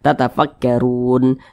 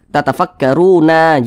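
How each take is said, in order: First: The word ends on a silent n. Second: The word ends with a vowel after n. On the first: The speaker calls it right. "kita baca tatafakkarun" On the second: The speaker calls it wrong. "Jangan dibaca"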